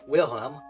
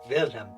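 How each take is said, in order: First: The name begins with a W sound. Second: The name begins with a V sound. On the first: The speaker calls it wrong. "instead of" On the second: The speaker calls it right. "It's just V, like a V"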